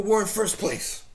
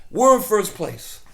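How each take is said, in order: First: Said in the usual way. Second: Louder and slower, savouring it; emphatic repeat. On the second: Real, not acted. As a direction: hammer it home, drawn out.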